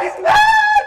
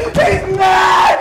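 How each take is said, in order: First: "mad" shrieked far higher and louder; a panicked shriek with "mad" at the top. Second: Panicked cry. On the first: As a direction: push "He's mad!" up into a shriek. Repeated cry, much higher. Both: Acted.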